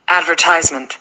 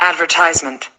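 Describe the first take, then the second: The two takes are said the same way.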